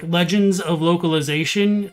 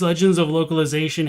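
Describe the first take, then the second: First: It is said more slowly. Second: It is said at normal, quick speed.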